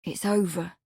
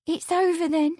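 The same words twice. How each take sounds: First: Firm. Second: High, hesitant rising question; pretty hesitation. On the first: Lawrence assures Amelia of the break, firm. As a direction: state it as settled, without lifting. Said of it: "Lawrence said firmly". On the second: Amelia seeks reassurance from Lawrence, hesitant. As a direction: ask it high and tentatively, lifting at the end. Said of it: "with a pretty hesitation". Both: A narrator's reading.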